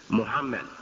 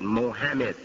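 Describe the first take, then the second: First: The name is said with the original vowels. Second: The name is said as its spelling reads. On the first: The speaker calls it right. "it's still the same pronunciation" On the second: The speaker calls it wrong. "They tried to pronounce it phonetically, and they said Mohammed"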